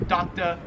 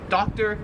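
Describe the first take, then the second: First: "doctor" ending in "tuh", no R; Australian dropped R. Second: "doctor" ending in a sounded R; American R. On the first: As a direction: finish "doctor" on uh. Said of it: "they just say". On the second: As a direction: finish "doctor" on a clear "ter". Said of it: "The R is not really pronounced". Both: Shown as a demonstration.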